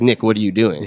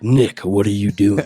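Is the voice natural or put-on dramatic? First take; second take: natural; put-on dramatic. First: It is said in a natural speaking voice. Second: It is said in a put-on dramatic voice.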